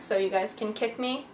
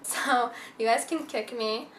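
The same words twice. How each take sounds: First: Said in the usual way. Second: Laughing. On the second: Real, not acted. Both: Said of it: "not literally".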